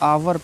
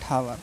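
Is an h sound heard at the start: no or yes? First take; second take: no; yes. First: It starts directly with the vowel, no h. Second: It starts with an audible h sound. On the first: The speaker calls it right. "आवर पढ़ना है" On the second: The speaker calls it wrong. "Not हावर"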